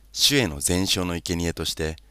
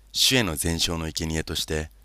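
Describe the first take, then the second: Both takes have the same delivery.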